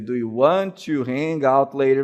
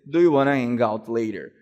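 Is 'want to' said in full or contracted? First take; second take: full; contracted. First: Want to is said fully as two words. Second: Want to is reduced into one word. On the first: "ao invés de dizer" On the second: "você pode dizer"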